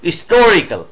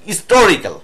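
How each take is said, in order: First: The initial h sound is barely pronounced. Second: The same.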